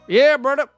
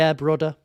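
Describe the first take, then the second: First: It is said in a Southern hick accent. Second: It is said in his normal accent.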